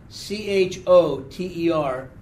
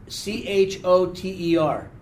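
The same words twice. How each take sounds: No difference in how they are said.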